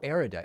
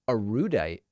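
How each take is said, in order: First: It begins with a sound like 'air'. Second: It begins with the sounds of 'a rude'.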